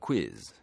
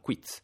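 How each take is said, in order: First: The word ends in a buzzing z sound. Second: The word ends in a ts-like z sound. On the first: This is how the English say it. "gli inglesi dicono quiz" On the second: This is how Italians say it, following the spelling. "siccome è scritto con una Z finale lo pronunciamo quiz"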